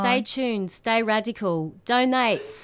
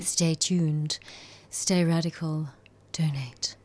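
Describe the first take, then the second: First: It is said in a casual English accent. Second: It is said in a posh English accent.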